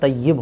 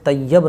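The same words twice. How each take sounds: First: The last syllable has a short 'i' vowel. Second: The last syllable has an 'a' vowel. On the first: The speaker calls it right. "यहाँ पे छोटी की छोटी की मात्रा लगाएंगे" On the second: The speaker calls it wrong. "Arabic के एतबार से तय्यब नहीं होता है"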